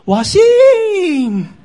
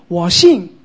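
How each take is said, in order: First: It is said in a raised, heightened voice. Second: It is said in a calm, plain voice. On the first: The speaker is upset and actually doubts. "马大当时讲的声音应该是比较提高的" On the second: The speaker simply believes. "但是马大不是这样讲"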